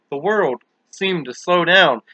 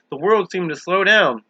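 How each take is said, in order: First: Slow, drawn-out narration. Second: Said in the usual way. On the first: A narrator's reading. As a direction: stretch each word slowly. Repeated slowly for effect.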